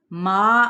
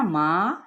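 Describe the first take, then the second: First: ما from the open mouth, with no nasal sound; loud, clear ما without nasality; correct open ma. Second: ماں said nasally, like mother in Urdu; wrong nasal ma. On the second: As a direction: show the error: ماں through the nose. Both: Shown as a demonstration. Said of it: "نہیں،".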